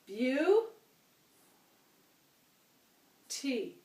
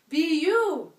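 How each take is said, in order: First: The syllables sound like 'byoo' then 'tee'. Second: The syllables sound like 'bee' then 'you'. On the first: The speaker calls it wrong. "I don't like to say it that way" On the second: The speaker calls it right. "I like to say it beautiful"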